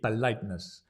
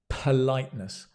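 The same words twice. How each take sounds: First: The first P is soft, close to a B. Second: The first P has a strong puff of air. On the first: The speaker calls it wrong. "In many languages, it would be politeness" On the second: The speaker calls it right. "But in English"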